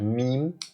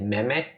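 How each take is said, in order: First: The word is said the standard English way. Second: The word is read out the way it's spelled. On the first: The speaker calls it right. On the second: The speaker calls it wrong.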